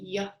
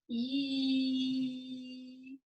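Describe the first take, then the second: First: The sound is clipped short with a vowel. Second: The sound is held long without a vowel. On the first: The speaker calls it wrong. "instead of saying yeah" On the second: The speaker calls it right. "we're going to hold this sound"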